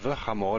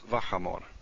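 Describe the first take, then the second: First: The prefix has a short, reduced vowel. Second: The prefix has a full 'a' vowel. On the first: The speaker calls it wrong. "instead of" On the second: The speaker calls it right.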